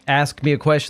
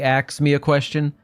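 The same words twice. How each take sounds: First: The word ask is said in the standard way. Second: The word ask is said with altered sounds.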